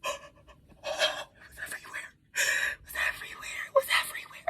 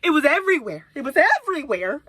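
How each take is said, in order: First: Voiceless, stunned whisper; horrified whisper. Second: Loud, voiced exclamation of dismay; exasperated outburst. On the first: Retold or imitated. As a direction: whisper it in disbelief, over and over. Reliving horror, choked whisper. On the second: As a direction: punch it out loud, appalled. Repeats it aloud after whispering.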